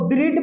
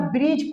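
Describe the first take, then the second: First: ब्रिड with the D sounded at the end; ब्रिड ending in a hard D, not J; wrong pronunciation. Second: ब्रिज with a silent D; ब्रिज with no D before the J; correct pronunciation. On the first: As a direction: say ब्रिड, wrongly voicing the silent D. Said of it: "तो इसको ब्रिड मत पढ़ना". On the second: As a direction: say ब्रिज, ending in a J sound. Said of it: "ब्रिज पढ़ना". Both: Shown as a demonstration.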